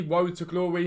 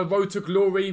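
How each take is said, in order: First: Road said as Woad, r as w; says w for r. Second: Said in the usual way. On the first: Shown as a demonstration. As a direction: Road to Glory with w for r: Woad to Glowy. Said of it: "I can't pronounce my R's properly". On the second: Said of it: "however you wanna pronounce it".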